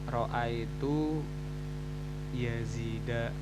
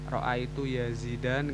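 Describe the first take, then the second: First: The name ends on a vowel without n. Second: The name ends with an added n sound. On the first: The speaker calls it right. "Dia harus tanpa tanwin" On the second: The speaker calls it wrong. "nggak boleh"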